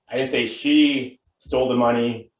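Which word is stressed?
she. The word 'she' carries the main stress. Someone else took it. "Could mean she didn't steal it, but somebody else did"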